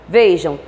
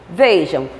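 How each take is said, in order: Both takes have the same delivery.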